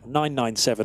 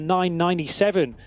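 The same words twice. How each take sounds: First: The number is read as nine, nine, seven. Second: The number is read as nine, then ninety-seven. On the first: The speaker calls it right. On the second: The speaker calls it wrong.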